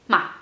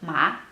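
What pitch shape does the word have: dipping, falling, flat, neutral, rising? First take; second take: neutral; dipping. First: The pitch is short and light, unmarked. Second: The pitch dips down and then rises. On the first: "a neutral tone" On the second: "an up and like down and up tone"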